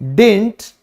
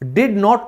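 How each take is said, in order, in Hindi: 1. यह एक संक्षिप्त शब्द की तरह बोला जाता है। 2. यह दो पूरे शब्दों की तरह बोला जाता है।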